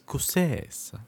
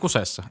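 First: It is said in a fancy, foreign-sounding way. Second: It is said as a plain Finnish word. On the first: It refers to the stylish bar's name. The speaker calls it right. "se pitää vielä sanoa silleen hassusti" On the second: It means being in trouble. The speaker calls it wrong. "Oletko kuseessa?"

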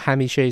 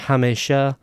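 First: It is said with the Iranian vowels. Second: It is said with the Afghan vowels. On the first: "hamishe is the Iranian pronunciation" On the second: "hamesha or hamesha is the Afghan and Tajik pronunciation"

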